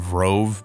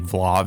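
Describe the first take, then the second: First: The second consonant is an R sound. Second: The second consonant is an L sound. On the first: The speaker calls it wrong. "I was saying Vrov" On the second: The speaker calls it right. "Vlov is the right way to pronounce it"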